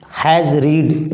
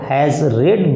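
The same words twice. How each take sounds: First: "has read" with "read" said like "reed"; wrong pronunciation. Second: "Has read" with "read" said like "red"; correct past-participle pronunciation. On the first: Teacher demonstrating the mistake to students, "read" as "reed". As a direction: give "read" a long ee after "has". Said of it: "it's wrong". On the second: Teacher modelling the right form for students, "read" as "red". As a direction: give "read" a short e after "Has". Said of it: "we have to pronounce it". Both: Shown as a demonstration.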